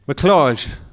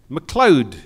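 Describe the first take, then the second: First: The name is said with a Gaelic pronunciation. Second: The name is said with an English pronunciation. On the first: The speaker calls it wrong. "I used the Gaelic pronunciation" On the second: The speaker calls it right. "she corrected me"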